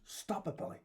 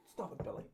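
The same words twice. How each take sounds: First: Imitating Billy Connolly. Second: Whispered, softer mock self-scolding; imitating Billy Connolly. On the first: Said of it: "and then he goes". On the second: Retelling Billy Connolly stopping himself, whispered. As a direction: hush yourself like a man holding back tears. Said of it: "um, and he goes".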